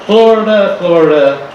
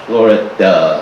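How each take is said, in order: First: "Florida" sung out high. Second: "Florida" dropped low. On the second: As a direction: let "Florida" sink deep. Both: Shown as a demonstration.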